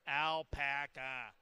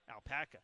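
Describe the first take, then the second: First: The word is said slowly, syllable by syllable. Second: The word is said quickly in one smooth run. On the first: "Now I'm going to always say it slow" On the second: "I got to try to say things seamless"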